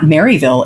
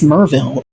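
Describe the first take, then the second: First: The name is said the nonlocal way. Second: The name is said the local way. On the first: This is how outsiders say it. The speaker calls it wrong. "it's not Maryville" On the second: This is how locals say it. The speaker calls it right. "It's Merville"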